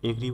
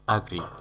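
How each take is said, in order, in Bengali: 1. প্রথম স্বরধ্বনিটি 'bed'-এর 'e'-এর মতো শোনায়। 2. প্রথম স্বরধ্বনিটি 'cat'-এর 'a'-এর মতো শোনায়। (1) "অনেকেই এগ্রি বলে উচ্চারণ করে" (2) "সঠিক উচ্চারণ হবে অ্যাগ্রি"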